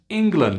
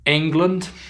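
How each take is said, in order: First: It begins with a short 'i' sound. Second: It begins with a vowel other than short 'i'. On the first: The speaker calls it right. "I, I, England, England, there it is" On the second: The speaker calls it wrong. "no, we don't live in England"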